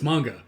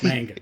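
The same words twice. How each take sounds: First: Manga is said the Japanese way. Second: Manga is said with a Chicago accent.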